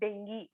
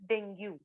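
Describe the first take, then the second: First: The word ends with an 'ee' sound. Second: The word ends with a 'yoo' sound. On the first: The speaker calls it right. "It is called as डेंगी" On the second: The speaker calls it wrong. "It is not called as डेंग्यू"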